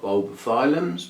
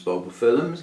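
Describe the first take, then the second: First: Bulbophyllums as bulbo-FILE-ums; alternative pronunciation. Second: Bulbophyllums as bulbo-FILL-ums; alternative pronunciation. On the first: Host lists orchids, Bulbophyllums said with a long i, FILE-ums. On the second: Host corrects herself doubtfully, Bulbophyllums said with a short i, FILL-ums. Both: Shown as a demonstration. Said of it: "however you say that".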